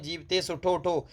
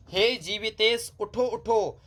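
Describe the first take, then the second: First: Said in the usual way. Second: "हे जीवितेश उठो उठो" recited high and slow; recited line. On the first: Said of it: "अब आप समझ सकते हैं". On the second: Shown as a demonstration. Teacher re-reciting the line to students, higher and slow. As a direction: lift "उठो उठो" like poetry, slowly. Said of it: "अब आप समझ सकते हैं जीवितेश उठो उठो".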